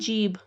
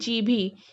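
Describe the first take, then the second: First: The word ends on a final consonant. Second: The word ends with an added final vowel. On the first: This is the standard form. "सही से कैसे बोलते हैं?" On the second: This is a regional spoken form. "जीभी को अ, सही से कैसे बोलते हैं?"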